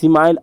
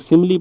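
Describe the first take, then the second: First: The word has two syllables, ending like 'mile'. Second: The word has three syllables, ending in 'lee'. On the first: The speaker calls it wrong. "सिमाइल स्माइल मत पढ़ना" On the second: The speaker calls it right. "इसको सिमिली पढ़ते हैं"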